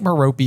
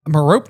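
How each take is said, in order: First: Merope said as "muh-ROH-pee"; three-syllable pronunciation. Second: Merope said as "muh-ROPE"; two-syllable pronunciation. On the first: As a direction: give Merope a final "ee" sound. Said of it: "how you're supposed to say it". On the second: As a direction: end Merope on a p, silent e. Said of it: "there's two pronunciations". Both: Shown as a demonstration.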